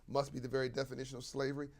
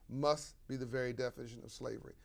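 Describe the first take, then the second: No difference in how they are said.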